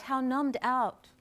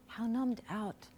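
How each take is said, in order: First: Said in the usual way. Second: Much softer, reflective echo; quiet, sobered afterthought; hushed repeat. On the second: Real, not acted. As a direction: let it drop away almost to nothing. Same phrase repeated much softer.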